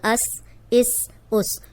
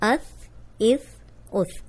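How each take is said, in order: First: The final consonant is a hissing, whistling s. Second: The final consonant is a soft th, without whistling. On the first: The speaker calls it wrong. "आपने ऐसे नहीं पढ़ना अस इस उस, ये सीन नहीं है" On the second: The speaker calls it right. "अब आपने ऐसे ही प्रैक्टिस करनी है और ऐसे ही पढ़ना है"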